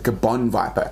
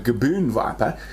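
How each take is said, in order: First: The first word ends with a short 'o' vowel. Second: The first word ends with a long 'oo' vowel. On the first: The speaker calls it right. "It's actually a" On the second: The speaker calls it wrong. "that is an incorrect pronunciation"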